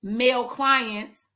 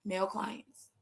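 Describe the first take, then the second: First: Male clients drawn out and firm; slow stressed male clients. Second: "male clients" repeated much softer, lower; soft echo. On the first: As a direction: lean on "male clients" slowly, full voice. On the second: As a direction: drop "male clients" to a near aside. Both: Shown as a demonstration. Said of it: "if you didn't see".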